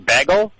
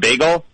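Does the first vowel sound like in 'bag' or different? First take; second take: bag; different. First: The first vowel sounds like in bag. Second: The first vowel does not sound like bag. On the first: This is a regional way of saying it. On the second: This is the usual way of saying it.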